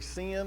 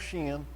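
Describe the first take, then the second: First: The word begins with a plain s sound. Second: The word begins with an sh sound. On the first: "you can pronounce it with an S" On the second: "or an S H"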